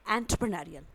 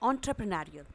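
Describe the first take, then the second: First: The first syllable sounds like 'en'. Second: The first syllable sounds like 'on'. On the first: "दूसरा pronunciation कुछ इस तरह से है एन ट्रे प्रे न री उल" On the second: "पहला मैंने आपको बताया ऑन ट्रे प्रे न री उल"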